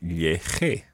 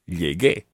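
First: The middle consonant is a soft throaty sound. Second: The middle consonant is a hard g sound. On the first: The speaker calls it wrong. "You would have to say lleje. However, that sounds very strange" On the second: The speaker calls it right. "to make the G into a hard G sound"

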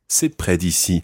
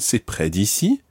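First: The voice falls at the end. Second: The voice rises at the end. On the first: It is a statement that it is near. "That means it's near to here" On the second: It asks whether it is near. "if we make it into a question"

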